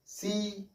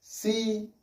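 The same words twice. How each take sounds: First: सी said very softly, almost under the breath, a little higher; soft syllable demo. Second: Said in the usual way. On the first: Shown as a demonstration. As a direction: breathe out सी gently as a teaching sample. (सी को धीरे से, लगभग फुसफुसाकर) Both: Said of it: "अब इसमें हमने कौन सा मात्रा लिया?".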